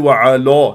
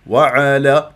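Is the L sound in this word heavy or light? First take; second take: heavy; light. First: The L sound is heavy and full. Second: The L sound is light and thin. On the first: The speaker calls it wrong. "ما تقولي وعلى" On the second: The speaker calls it right. "لا تفخم اللام من على المرققة هي"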